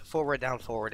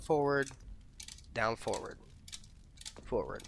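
First: Forward, down, forward in one unbroken run; run-together wrong example. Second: Forward, down, forward with long gaps between; separated right example. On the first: Player showing viewers the unwanted inputs, run together. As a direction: say the three inputs straight through without pauses. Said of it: "that's not what we want". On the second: Player showing viewers the wanted inputs, spaced out step by step. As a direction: set each input apart with a clear pause. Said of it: "That's what we want". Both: Shown as a demonstration.

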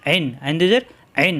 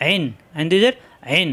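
No difference in how they are said.

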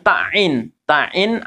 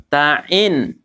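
First: Ta'in with ta cut into a doubled ain; wrong doubled ain. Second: Ta'in with a long ta, then a clean ain; ta and ain separated. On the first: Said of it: "ainnya jadi tasdid". (ta'in salah, ainnya jadi tasdid) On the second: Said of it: "pisahkan ta sama ain ini". (Ta'in dengan ta dan ain dipisahkan) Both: Shown as a demonstration.

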